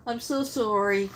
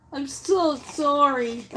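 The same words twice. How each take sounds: First: Said in the usual way. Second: Heartfelt sympathy. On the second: Real, not acted. Reading out a viewer's news of her dog, slow and heartfelt. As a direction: let the sorrow slow you down.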